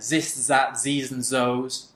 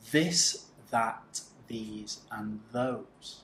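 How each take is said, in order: First: The th sound is replaced by another sound. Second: The th sound is clearly made each time. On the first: The speaker calls it wrong. "I don't want to hear this" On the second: The speaker calls it right.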